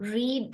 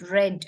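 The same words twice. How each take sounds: First: It is said with a long ee vowel. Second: It is said with a short e vowel. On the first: This is the present form of the verb. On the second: This is the past form of the verb.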